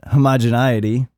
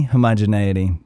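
First: "homogeneity" with NIGH for the "nee" syllable; mispronounced word. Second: "Homogeneity" as ho-moj-uh-NAY-ity, falling and lower; second retry. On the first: Podcaster recalling his tirade about capitalism, "homogeneity" mispronounced with a NIGH sound. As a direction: say "homogeneity" as ho-moj-uh-NIGH-ity. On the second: Podcaster correcting his own word, "Homogeneity" with a NAY sound, falling. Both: Real, not acted. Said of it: "I'm always fucking it up".

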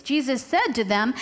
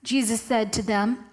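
First: Lightly snarky lead-in, lilting up at the end; a touch of snark as you introduce the reply. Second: Said in the usual way. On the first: Acted. Preacher picturing Jesus answering the Pharisees, lightly snarky. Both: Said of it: "I like to picture it in a snarky voice".

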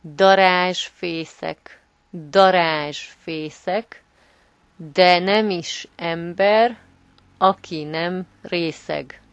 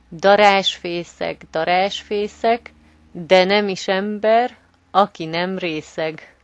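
First: Slow and clear, every syllable spelled out; slow teaching read. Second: Said in the usual way. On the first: Shown as a demonstration. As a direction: say it slowly so learners can follow. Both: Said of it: "can you repeat it for our listeners".

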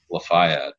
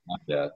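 First: Lafayette with a long EYE in the middle, luh-FY-et; outsider's pronunciation. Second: Lafayette starting like "laugh", LAFF-ee-et; local pronunciation. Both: Shown as a demonstration. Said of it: "not from Louisiana is if they say".

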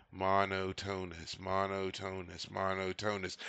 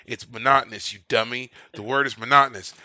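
First: Monotonous as MON-oh-TONE-us, slow and soft; mispronounced word. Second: Monotonous as muh-NOT-nus, stress on NOT; correct pronunciation. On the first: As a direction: mumble Monotonous wrongly to yourself. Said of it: "they kept saying". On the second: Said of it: "in my head, I was going". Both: Retold or imitated.

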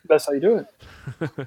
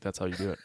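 First: Words smeared by sticky peanut butter; mouth full of peanut butter. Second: Mouth full of peanut butter. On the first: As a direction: talk like your mouth is full. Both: Shown as a demonstration. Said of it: "say George with peanut butter in your mouth".

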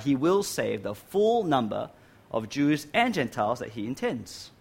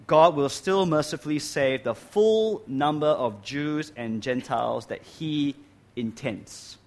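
First: "and" stressed between Jews and Gentiles. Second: "full" drawn out in a slow, deliberate statement; stress on "full". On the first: Repeats answer, weighting both groups. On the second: Restates answer, weighting full number. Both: Real, not acted.

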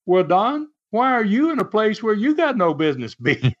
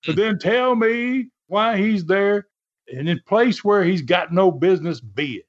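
First: High-pitched retort, rising at the end; pointed comeback, pitched up; Les Thatcher firing back. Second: High-pitched, mock cross-examination; Don Carson as lawyer. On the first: Retold or imitated. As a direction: throw the question back, lightly imitated. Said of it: "So Les fired back". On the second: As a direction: lightly imitate an indignant wrestler playing lawyer. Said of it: "as if he's a lawyer".

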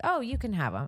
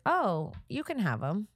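First: Quicker, lightly raised offhand handover; nonchalant concession. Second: Slow, drawn-out casual handover; nonchalant concession. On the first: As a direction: toss it off casually, a bit higher. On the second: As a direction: brush it off, taking your time. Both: Retold or imitated. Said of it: "just like that".

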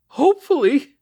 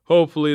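First: Very high, loud, incredulous cry; horrified cry. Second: Said in the usual way. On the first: A narrator's reading. Mother reacts to officer's news of her son, crying out. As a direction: cry the word back in disbelief. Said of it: "she cried".

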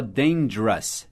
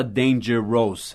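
First: Dangerous squeezed to two syllables, "DAIN-jrus"; natural pronunciation. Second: Dangerous with three full syllables, "dan-ger-ROSE"; spelling pronunciation. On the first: Teacher showing how dangerous is really said, reduced to "DAIN-jrus". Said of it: "a gente fala dangerous". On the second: Teacher showing how nobody says dangerous, full three-syllable reading. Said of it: "a gente nunca fala dangerous". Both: Shown as a demonstration.

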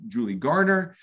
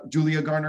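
First: "Julie Garner", the name said as Julie instead of Julia; misspoken name. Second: "Julia Garner" with the full Julia ending; corrected name. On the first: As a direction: slip and say "Julie Garner" with no final a. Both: Real, not acted. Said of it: "excuse me".

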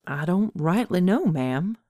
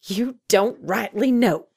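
First: Put-on mildly sheepish young man's answer. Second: Higher, slow, incredulous echo; barked disbelief. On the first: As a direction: admit it with a verbal shrug. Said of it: "answered with a shrug and a sheepish grin". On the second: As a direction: throw the words back in disbelief. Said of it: "Ada Mae barked in disbelief". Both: A narrator's reading.

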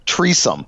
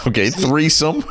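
First: "Treesome" said with a plain t sound; "Treesome" without th. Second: "threesome" with a clear th; correct pronunciation. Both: Shown as a demonstration.

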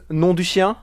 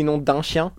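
First: "nom du chien" with a plain "du"; misspelled French swear. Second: "nom d'un chien" with French nasal "d'un"; correct French. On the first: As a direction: say "nom du chien" as written, "du" not "d'un". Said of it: "he says nom du chien". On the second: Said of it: "In French, this would be". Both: Shown as a demonstration.

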